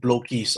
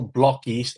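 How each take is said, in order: First: The first vowel sounds like in bloke. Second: The first vowel sounds like in block. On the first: This is a common mistaken name. The speaker calls it wrong. "and not blokies" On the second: This is the official name. The speaker calls it right. "officially it's still blockies"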